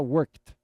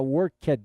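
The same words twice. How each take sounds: First: The ending is said without an extra syllable. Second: The ending is said as an extra syllable. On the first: The speaker calls it right. "você não vai pronunciar o e" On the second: The speaker calls it wrong. "em vez de falar worked"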